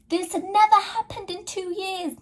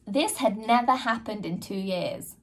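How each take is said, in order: First: "never" hit much higher and pushed; stress on never. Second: Said in the usual way. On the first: Real, not acted. Insisting to viewers it had never happened, stressing never. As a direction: lift the word "never" right up, insistent.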